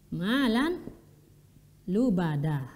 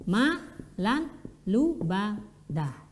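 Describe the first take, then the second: Both takes have the same delivery.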